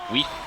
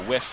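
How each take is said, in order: First: The vowel is long, like 'ee'. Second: The vowel is short, like 'ih'.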